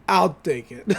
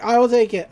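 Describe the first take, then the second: First: Said in the usual way. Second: Will pushed out firmly, a bit louder; stress on will. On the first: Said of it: "show up and say". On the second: Retold or imitated. Big Henry insisting to the crowd, stress on will. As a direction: lean hard on will to insist. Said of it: "He's like".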